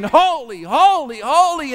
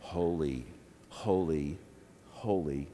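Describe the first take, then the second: First: High, raised, insistent refrain; louder worship refrain. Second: Very low and soft, spaced apart; hushed reverent refrain. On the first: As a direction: call out each one in worship. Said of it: "we sang it louder and louder". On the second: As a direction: begin the worship refrain quietly. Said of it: "we started singing". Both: Retold or imitated.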